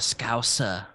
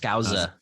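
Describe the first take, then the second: First: The middle consonant is a hissing S sound. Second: The middle consonant is a buzzing Z sound. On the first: The speaker calls it right. "but it's an S. It's suh" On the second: The speaker calls it wrong. "we keep putting a Z for the Z"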